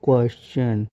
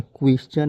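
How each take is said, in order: First: "क्वेश्चन" said carefully as "kwes-chan", with an e vowel; teacher sounding out "क्वेश्चन" from a "kwa" start; correct pronunciation demo. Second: "क्वेश्चन" said quickly as "kwis-chan", with an i vowel; wrong pronunciation. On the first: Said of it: "ऐसे आपको क्यू को पढ़ना है". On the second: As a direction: demonstrate the mistaken "क्वेश्चन" with "kwis" at the front. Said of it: "क्वेश्चन नहीं पढ़ना है". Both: Shown as a demonstration.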